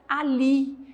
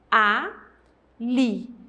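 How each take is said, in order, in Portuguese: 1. A palavra é dita de forma contínua, sem pausa. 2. A palavra é dita com uma pausa entre as sílabas.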